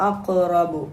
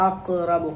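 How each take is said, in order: No difference in how they are said.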